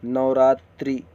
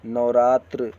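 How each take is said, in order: First: नवरात्रि loud, ending in a clear "tri"; नवरात्रि with an added i at the end; wrong i ending. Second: नवरात्र loud, ending in "tra" without i; नवरात्र closing on a bare tr; correct bare ending. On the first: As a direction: sound the final i in नवरात्रि. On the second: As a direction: drop the i at the end of नवरात्र. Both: Shown as a demonstration. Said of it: "छोटी की मात्रा नहीं रहेगा इसमें".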